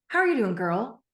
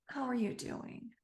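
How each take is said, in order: First: It is said in a strong, upbeat tone. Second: It is said in a pained, aching tone.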